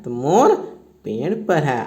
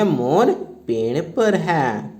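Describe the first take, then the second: First: Said in the usual way. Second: Slow, word-by-word dictation. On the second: Shown as a demonstration. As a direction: dictate each word slowly for the class. (धीमे-धीमे बोलकर लिखवाना) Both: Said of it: "तो लिखेंगे".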